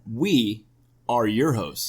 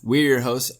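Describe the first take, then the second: First: It is said more slowly. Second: It is said quickly.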